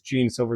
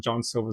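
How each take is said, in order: First: The first name is said like "Gene". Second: The first name is said like "John". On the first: It follows the spelling of the name. "spelled Gene" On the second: It is how people pronounce the name. "they pronounce it John"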